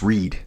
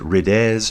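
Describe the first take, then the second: First: The vowel sounds like the ee in reed. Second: The vowel sounds like the i in ride. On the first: The speaker calls it right. "It's just read" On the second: The speaker calls it wrong. "I would have said rides"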